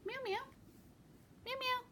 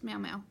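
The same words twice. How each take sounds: First: Much higher meow call to the cat. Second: Said in the usual way. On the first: Real, not acted. Calling her cat over, a high-pitched meow meow.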